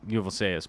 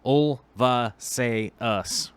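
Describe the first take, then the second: First: The word begins with the sounds 'uv'. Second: The word begins with the sounds 'ulv'. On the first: The speaker calls it wrong. "I'm saying it wrong" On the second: The speaker calls it right.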